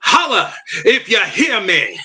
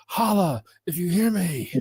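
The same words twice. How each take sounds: First: "Holla if you hear me" in a southern twang, pitched up high with a laugh. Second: "Holla if you hear me" sung out high and slow, Holla stretched; drawled catchphrase. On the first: Guest obliging the host with a laughing southern-twang "Holla if you hear me". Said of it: "put a little southern twang on it". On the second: Host demonstrating the right way to say the catchphrase, high and drawn out. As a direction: draw out "Holla" as a rallying call. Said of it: "you gotta say it right". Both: Shown as a demonstration.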